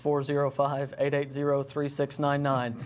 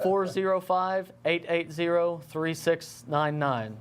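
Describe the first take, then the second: First: The number is said at normal, faster speed. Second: The number is said more slowly.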